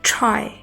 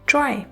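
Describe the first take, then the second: First: The first t has a puff of air. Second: The first t has no puff of air. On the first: The speaker calls it right. "Puff of air के साथ बोलना है" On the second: The speaker calls it wrong. "टी की sound को उर्दू के letter टे की तरह"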